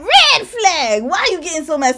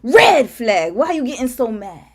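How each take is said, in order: First: It is said in a normal voice. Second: It is said in a deeper voice.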